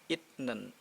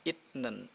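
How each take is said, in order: First: A T sound comes before the N. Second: A T sound comes before the N.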